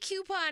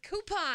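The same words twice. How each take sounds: First: The first syllable sounds like cue. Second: The first syllable sounds like coo. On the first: The speaker calls it wrong. "Don't say coupon" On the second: The speaker calls it right. "It's coupon"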